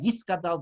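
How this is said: It has an s sound after 'yi'.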